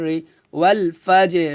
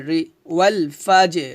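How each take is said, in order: No difference in how they are said.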